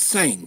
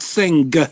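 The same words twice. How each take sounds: First: The word ends without an audible hard G. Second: The word ends with an audible hard G. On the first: The speaker calls it right. "it's sing" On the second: The speaker calls it wrong. "You do the G at the end of sing. Like it's not sing"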